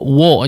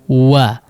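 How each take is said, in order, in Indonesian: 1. Bibir tetap membulat dan bunyi vokalnya terdengar tebal. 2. Bibir terbuka dan bunyi vokalnya terdengar jelas. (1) "jangan dibiarkan di depan sehingga menjadi seperti tebal" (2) "Waw dibuka dulu"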